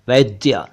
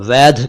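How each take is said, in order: First: The final consonant is a 'dy' cluster. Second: The final consonant is an aspirated 'dh' sound. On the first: The speaker calls it right. "जबकि यह है वैद्य" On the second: The speaker calls it wrong. "इसे कुछ लोग वैध कहते हैं"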